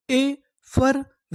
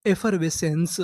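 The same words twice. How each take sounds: First: effervescence drawn out slowly, higher, syllable by syllable; slow demo. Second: Said in the usual way. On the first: Shown as a demonstration. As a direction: pull effervescence apart slowly. (Effervescence धीरे-धीरे तोड़कर) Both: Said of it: "तो हमारी पूरी meaning क्या बनी?".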